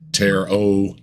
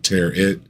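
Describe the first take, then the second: First: The word ends with an open 'oh' sound. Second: The word ends with a short 'it' sound. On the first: The speaker calls it right. "it's tear o" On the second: The speaker calls it wrong. "not tear it. He he he's he's pronouncing it like carrot"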